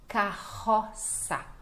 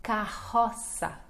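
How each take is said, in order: First: Carroça drawn out, throaty double R; Carroça, ka-HO-sa, very slow; very slow model word. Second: Carroça slowly, strong R as h; slow model word. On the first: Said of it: "os dois R's são fortes". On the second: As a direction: stretch out Carroça, ka-HO-sa. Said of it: "Lembrando que C cedilha". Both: Shown as a demonstration.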